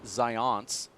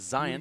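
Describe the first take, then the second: First: The ending sounds like the word 'ions'. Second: The ending sounds like the word 'science'. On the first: The speaker calls it wrong. "Not Zions, as you say" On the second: The speaker calls it right. "like the word science"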